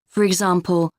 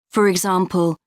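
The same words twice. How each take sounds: The two takes are said the same way.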